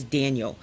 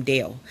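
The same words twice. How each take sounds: First: Said in the usual way. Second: "Dale" for Daniel, middle swallowed; Daniel shortened to a quick "Dale"; Daniel run together. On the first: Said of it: "I'm calling him Daniel". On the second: Shown as a demonstration. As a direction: squash Daniel into one syllable, "Dale". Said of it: "'cause I say it so fast".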